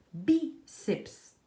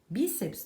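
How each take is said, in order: First: "bíceps" split in two, BI high and loud; stress on BI. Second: Said in the usual way. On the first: Shown as a demonstration. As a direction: punch bi, pause, then drop to ceps. ("bíceps" separado, com bi forte e agudo) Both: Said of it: "tem a sílaba tônica no bi".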